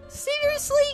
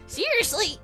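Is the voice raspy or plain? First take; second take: plain; raspy. First: It is said in a plain voice. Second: It is said in a raspy, rattly voice.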